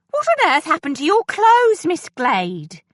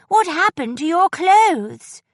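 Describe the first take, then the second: First: High, loud gasp of dismay at the torn clothes; shocked housekeeper. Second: High, loud, slow blurt of alarm; bursting out. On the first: Housekeeper shocked at Miss Glade's ruined clothes, high and loud. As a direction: exclaim it high and loud, scandalised. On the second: Edwina alarmed at Miss Glade's clothes, loud burst. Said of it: "Edwina burst out". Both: A narrator's reading.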